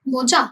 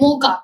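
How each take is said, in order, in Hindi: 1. बीच का व्यंजन 'ch' ध्वनि है। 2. बीच का व्यंजन 'k' ध्वनि है। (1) "रॉन्ग।" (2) "इसको हम बोलते हैं मोका"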